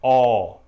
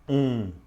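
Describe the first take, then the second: First: The vowel is open, with the mouth wider. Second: The vowel is nasal, with air through the nose.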